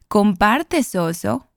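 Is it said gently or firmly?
firmly. It is said with more firmness.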